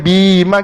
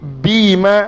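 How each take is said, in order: First: The final vowel is short. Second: The final vowel is long. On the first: The speaker calls it wrong. "bukan bima gitu tak" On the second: The speaker calls it right. "Ma tu bunyi ma dan panjang"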